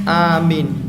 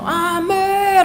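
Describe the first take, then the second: First: It is said aloud at a moderate volume. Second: It is shouted very loudly with a wide-open mouth.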